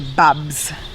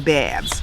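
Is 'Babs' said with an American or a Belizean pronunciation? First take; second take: Belizean; American. First: The name is said with a Belizean pronunciation. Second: The name is said with an American pronunciation. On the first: "We say Babs" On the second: "Like American people say Babs"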